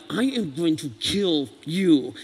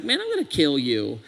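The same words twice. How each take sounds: First: Slow, deliberate and cold; measured, chilling menace; slow menacing threat. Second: Casual threat tone. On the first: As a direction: spell out each word like a real threat. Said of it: "that's another tone". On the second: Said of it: "that's one tone". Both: Shown as a demonstration.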